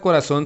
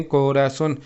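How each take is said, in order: First: Said in the usual way. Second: "corazón" broken into co, ra, zón; split into syllables. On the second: Shown as a demonstration. Teacher showing how the word divides, "corazón" said in separated syllables. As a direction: say "corazón" syllable by syllable, with small gaps. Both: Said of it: "se divide en".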